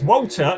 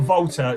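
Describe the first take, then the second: First: The name begins with a W sound. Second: The name begins with a V sound. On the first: The speaker calls it right. "it's Walter" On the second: The speaker calls it wrong. "not Volta"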